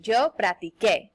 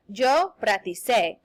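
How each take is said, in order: First: "practiqué" with a k sound; "practiqué", keeping the hard k before é; correct hard c. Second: "practicé" slowly, with an s sound; "practicé", its c softened to s; mispronounced soft c. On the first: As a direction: say "practiqué" ending in "kay". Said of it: "it would make the pronunciation sound really weird". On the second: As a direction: say "practicé" ending in "say". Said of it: "Uh-oh, that's not right". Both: Shown as a demonstration.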